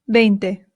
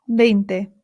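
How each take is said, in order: Both takes have the same delivery.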